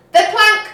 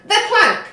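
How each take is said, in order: First: High, loud yell rising on plank. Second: High, loud yell falling on plank. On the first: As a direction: chant it eagerly for the plank. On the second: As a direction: repeat it firmly to settle it. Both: A narrator's reading. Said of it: "yelled Ben Buckle and Percy Patch".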